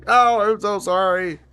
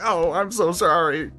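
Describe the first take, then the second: First: Higher and louder pleading sorry; louder, more frantic apology. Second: Higher, apologetic little voice; mock apology. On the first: Retold or imitated. Apologizing to the worm again, higher and louder, pleading. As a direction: beg the worm's forgiveness, now louder. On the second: Apologizing to the worm while hooking it, in a raised, sorry little voice. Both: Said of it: "I was just like".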